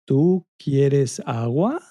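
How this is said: The pitch rises at the end. It asks a question. "raising the pitch at the end to make it sound like a question"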